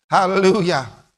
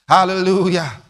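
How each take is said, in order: Both takes have the same delivery.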